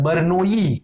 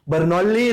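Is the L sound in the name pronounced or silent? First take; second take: silent; pronounced. First: The name is said with the L silent. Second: The name is said with the L pronounced. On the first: The speaker calls it right. "दो जो दो एल है हम उनको usually silent रखते हैं।" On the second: The speaker calls it wrong. "बर्नौली नहीं होता है"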